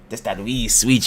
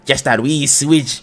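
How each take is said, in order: First: The voice is pitched low and deep. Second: The voice is pitched noticeably higher. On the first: "It it was too deep" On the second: "Let me get the higher pitch voice"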